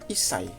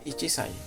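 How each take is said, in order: First: It has a doubled 's' with no 'chi'. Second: It has a full 'chi' before 'sai'. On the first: The speaker calls it right. "tetap menggunakan isai" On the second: The speaker calls it wrong. "bukan ichisai"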